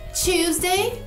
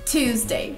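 First: The first sound is softened into a 'ch'. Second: The first sound is a clear 't'. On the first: This is how people in that country say it. "o seu T não precisa ser claro. Pode ser tchu" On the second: This is the American English way. "E eu diria Tuesday, no inglês americano"

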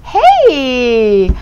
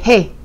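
First: It sounds like a friendly greeting. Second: It sounds like a rude call.

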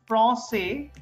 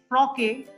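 First: The middle consonant is an s sound. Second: The middle consonant is a k sound. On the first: The speaker calls it right. "So the French people are saying français" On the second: The speaker calls it wrong. "So then I should have pronounced it as froque, because ka sound"

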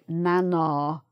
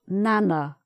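First: The word is said the regional, less common way. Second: The word is said the common, widespread way.

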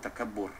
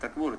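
First: The word is said with three syllables. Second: The word is said with two syllables. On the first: The speaker calls it right. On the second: The speaker calls it wrong. "Orang lain panggil takbur, bukan takbur"

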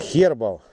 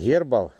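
First: The word begins with a breathy H sound. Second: The word begins with a hard G sound. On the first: The speaker calls it right. "а хербал" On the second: The speaker calls it wrong. "Не гербал"

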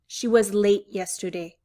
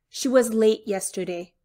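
The two takes are said the same way.

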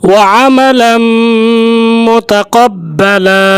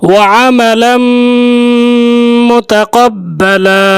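The two takes are said the same way.

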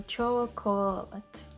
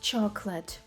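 First: All three syllables are pronounced fully. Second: Only two syllables are pronounced. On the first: "Ми бачимо chocolate" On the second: "Вимовляється як chocolate. Фактично 2 склади"

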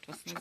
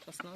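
First: The last syllable has an e vowel. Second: The last syllable has an o vowel. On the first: This is the standard word. The speaker calls it wrong. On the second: This is the highlander dialect word. The speaker calls it right.

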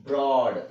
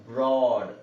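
The two takes are said the same way.

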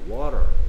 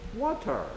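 First: It is said in an American accent. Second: It is said in a British accent. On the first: "미국 사람들은 Water" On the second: "영국 사람들은 Water"

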